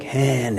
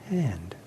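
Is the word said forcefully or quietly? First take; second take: forcefully; quietly. First: The word is said forcefully and loudly. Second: The word is said softly and quietly.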